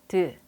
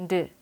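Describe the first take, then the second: Both takes have the same delivery.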